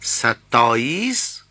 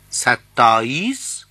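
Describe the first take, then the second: First: ستائیس said slowly as sataais, rising; slow model of ستائیس as sataais; careful pronunciation. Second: ستائیس said as sataais at normal pace, rising; ستائیس said again as sataais for learners; careful pronunciation. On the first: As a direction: spell out ستائیس slowly as sa-taa-is for learners. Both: Shown as a demonstration.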